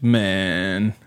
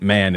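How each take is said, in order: First: The vowel is raised, sounding almost like 'men'. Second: The vowel is the plain open 'a' sound. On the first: "it's man, almost like men" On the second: "man isn't man"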